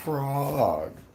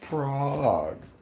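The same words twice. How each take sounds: First: The name is said with a fancier, affected pronunciation. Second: The same.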